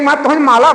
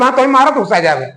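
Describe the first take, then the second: First: Put-on माला said with an l for the r, childlike; baby lisp. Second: Said in the usual way. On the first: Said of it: "उन्होंने कह दी". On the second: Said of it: "अब हम तुम्हें कह दी".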